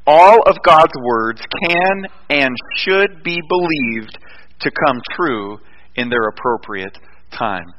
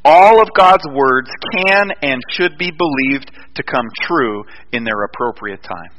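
First: Slower dictation. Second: Measured dictation. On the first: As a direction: spell out each word slowly for note-takers. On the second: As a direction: state it deliberately so they can write it. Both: Shown as a demonstration. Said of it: "I want you to write this down".

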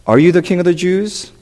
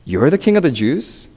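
First: Said in the usual way. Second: Doubting "You're", rising at the end; softly disbelieving, lifting on "king of the Jews"; incredulous question. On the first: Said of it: "is Pilate saying". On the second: Shown as a demonstration. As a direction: question it as if "You're" can't be true. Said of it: "he might be asking it as".

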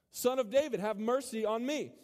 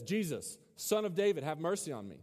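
First: Higher, mildly raised plea; crying out more. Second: Understated call for mercy; crying out. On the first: Blind man calling to Jesus over the rebukes, higher insistent cry. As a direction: push the call higher, without a full shout. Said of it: "cried out all the more". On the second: Blind man calling to Jesus, understated crying out. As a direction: read the cry with mild projection, easing off. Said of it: "It says he cried out". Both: A narrator's reading.

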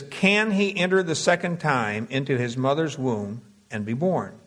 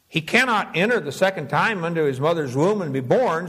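First: Said in the usual way. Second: "He cannot enter" as a firm assertion; statement, not question. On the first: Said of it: "the question mark would be better off". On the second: Shown as a demonstration. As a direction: assert "cannot" without any questioning tune. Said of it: "he's making a statement".

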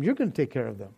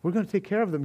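First: "You're" pressed low and heavy; stress on You're. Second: Said in the usual way. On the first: Shown as a demonstration. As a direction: put the weight on "You're".

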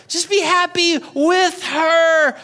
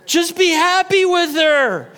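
First: Slow, drawn-out plea; higher, slower urging; pleading emphasis. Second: Said in the usual way. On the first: Shown as a demonstration. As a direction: lean on be, slowly.

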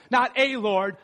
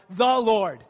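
First: "a" set apart in its full form; stress on A. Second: "the" said in full with weight; stress on THE. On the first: Preacher ruling out just any Lord, stressing "a". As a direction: point up "a" to reject it. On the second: Preacher correcting a Lord to the Lord, stressing "the". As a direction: lean on "the" as the only one. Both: Shown as a demonstration.

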